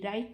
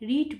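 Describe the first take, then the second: First: The vowel is a long 'eye' sound. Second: The vowel is a short 'i' sound. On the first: The speaker calls it wrong. "রাইট নয়" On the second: The speaker calls it right. "যেটাকে রিট বলবি"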